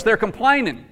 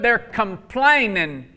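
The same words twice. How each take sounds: First: Said in the usual way. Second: "complaining" stretched slowly, syllable by syllable; slow, deliberate stress on "complaining"; drawn-out emphasis. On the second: Real, not acted. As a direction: lean long and hard on "complaining". Hammering the word to the congregation.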